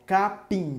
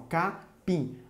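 First: Said in the usual way. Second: "capim" broken as ca, pim; split into syllables. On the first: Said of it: "Se eu separar". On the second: Shown as a demonstration. Teacher dividing the example for pupils, "capim" syllable by syllable. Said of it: "Se eu separar, fica assim".

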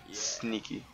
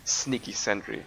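First: Softer sneaky aside; quiet. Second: Said in the usual way. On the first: Real, not acted. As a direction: drop to a hushed sneaky voice.

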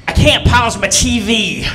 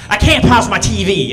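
First: Lightly imitated Arkansas country drawl; a touch of Arkansas accent, slow; Arkansas country mom. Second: Mock Arkansas accent with a laugh; laughing through a light Arkansas twang; Arkansas country mom. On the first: Son imitates his Arkansas mom on the phone, light country accent. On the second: Comic repeats mom's line in a laughing Arkansas twang. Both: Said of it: "She's real country from Arkansas".

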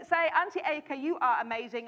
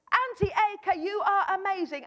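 First: Said in the usual way. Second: "Auntie Edgar" called out higher and bolder; big voice. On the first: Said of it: "I said to him". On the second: Retold or imitated. Child told to use a big voice, proud call. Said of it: "say it in a big voice".

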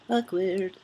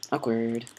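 First: AWKWARD drawn out in a higher pitch; playful singsong. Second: Said in the usual way. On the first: Real, not acted. Player fills an awkward moment alone, playful singsong. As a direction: sing out "Awkward" after a little laugh. Repeats it playfully after a laugh.

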